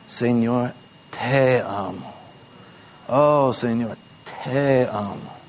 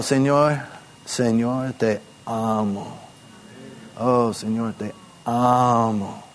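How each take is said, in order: First: "Señor" carried, "te amo" slow and soft; stress on Señor. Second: "te amo" drawn out slowly and softly; stress on te amo. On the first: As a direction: lean on "Señor" as the one loved. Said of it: "Enfatizando que tú eres el que". (énfasis en "Señor", lento y suave) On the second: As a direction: linger on "te amo" as my own love. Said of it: "Enfatizando que yo". (énfasis en "te amo", lento) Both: Shown as a demonstration.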